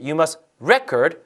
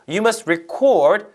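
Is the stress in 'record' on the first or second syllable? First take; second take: first; second. First: The stress is on the first syllable. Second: The stress is on the second syllable. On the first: Record is a noun, so the sentence lacks a verb. The speaker calls it wrong. "이렇게 하면 말이 안 되죠" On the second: Record is a verb meaning to write down. The speaker calls it right. "record 뒤에다 써야 되는데"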